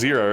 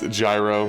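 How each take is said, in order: First: The word is said sounding like 'zero'. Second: The word is said sounding like 'gyro'. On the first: This is the technically correct pronunciation. "Technically it'd be pronounced zero" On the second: This is how the name is said in this game world. "But I think it's gyro in this world"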